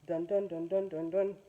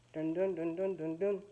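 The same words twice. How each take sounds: The two takes are said the same way.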